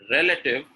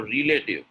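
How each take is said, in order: First: RELATIVE with short "rel" and reduced middle; correct pronunciation. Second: RELATIVE starting "ree-lay", like relate; wrong pronunciation. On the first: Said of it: "Relative is correct". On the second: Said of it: "Relative is incorrect". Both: Shown as a demonstration.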